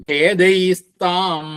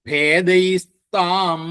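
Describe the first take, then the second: The two takes are said the same way.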